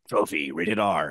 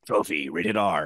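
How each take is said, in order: First: It is read darkly and ominously. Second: It is read darkly and ominously.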